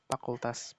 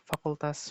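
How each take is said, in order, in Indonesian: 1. Kata ini diawali bunyi p. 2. Kata ini diawali bunyi f. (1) "Bagi orang yang tidak dapat menikmati pendidikan formal" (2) "bunyi F ... sering terdapat dalam ujaran kaum yang berpendidikan"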